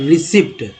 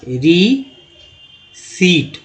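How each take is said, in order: First: A p sound is heard before the final t. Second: No p sound is heard before the final t. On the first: The speaker calls it wrong. "लेकिन इसे रिसिप्ट नहीं पढ़ते हैं" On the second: The speaker calls it right. "ये सही है ... पी जो है साइलेंट है"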